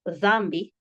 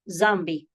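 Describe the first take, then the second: First: The word begins with a soft th sound. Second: The word begins with a buzzing z sound. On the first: "instead of dhambi" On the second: "pronounce the D H with a Z sound"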